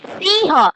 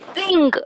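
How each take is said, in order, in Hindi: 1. शब्द का अंत साँस वाली h ध्वनि से होता है। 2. शब्द का अंत नासिका वाली ng ध्वनि से होता है। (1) "The actual uh, pronunciation is Siha" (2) "in some states they are pronouncing. They say sing"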